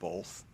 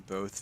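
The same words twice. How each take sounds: First: It is said with an added L sound. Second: It is said without any L sound. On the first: The speaker calls it wrong. "instead of both" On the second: The speaker calls it right. "So glad you say both"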